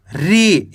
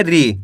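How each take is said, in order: First: री held too long on its vowel; wrong long vowel. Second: री said short, pitch dropping low; short vowel. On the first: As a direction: stretch out the ई in री. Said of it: "ऐसे नहीं पढ़ना". (री को ज़्यादा खींचकर) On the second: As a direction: keep the ई in री brief, voice falling. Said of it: "कैसे पढ़ेंगे". (री को कम खींचकर) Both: Shown as a demonstration.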